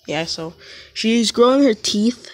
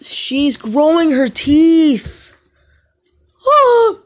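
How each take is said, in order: First: Said in the usual way. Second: Higher and slow, stretched out on teeth; excited reveal. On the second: Real, not acted. Telling viewers about her baby sister's teeth, higher and slow. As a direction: draw it out like big news.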